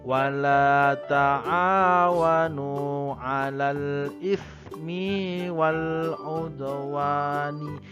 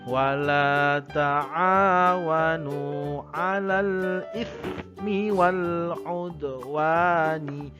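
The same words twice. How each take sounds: First: The vowel after m in ismi is drawn out. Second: The vowel after m in ismi is short. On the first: The speaker calls it wrong. "nggak boleh" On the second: The speaker calls it right. "karena ismi di bawahnya itu pendek"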